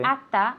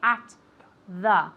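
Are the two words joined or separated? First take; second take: joined; separated. First: The two words run together as one. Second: The two words are said separately. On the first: The speaker calls it right. "it sounds like one word" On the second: The speaker calls it wrong. "We don't say at the"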